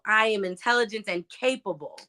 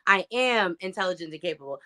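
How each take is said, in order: First: The stress falls on the word "capable". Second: The stress falls on the word "am".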